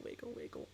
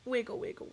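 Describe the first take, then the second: First: Breathy whispered wiggle chant. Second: Said in the usual way. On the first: Real, not acted. Streamer whispering a playful chant to chat. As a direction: drop to a whisper.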